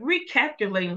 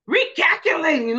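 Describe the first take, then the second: First: It is said with a little attitude. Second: It is said in an angry, mad way.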